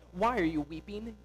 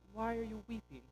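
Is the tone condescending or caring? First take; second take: condescending; caring. First: It sounds condescending and dismissive. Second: It sounds caring and gentle.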